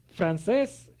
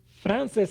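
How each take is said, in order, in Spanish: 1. El acento está en la última sílaba. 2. El acento está en la primera sílaba. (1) "Francés es la persona, de dónde es, de Francia" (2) "Frances es un nombre"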